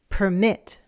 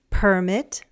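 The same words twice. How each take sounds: First: The stress is on the second syllable. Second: The stress is on the first syllable. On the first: It is a verb meaning to allow. "The stress shifted" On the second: It is a noun, an official document. "The noun and the verb have different word stress patterns"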